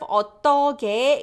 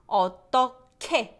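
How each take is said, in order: First: The middle consonant has no puff of air. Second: The middle consonant has a strong puff of air. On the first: "instead of" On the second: "it becomes 어떡해 because of this h sound"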